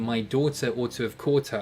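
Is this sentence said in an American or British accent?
British. It is said in a British accent.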